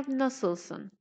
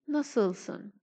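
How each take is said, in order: No difference in how they are said.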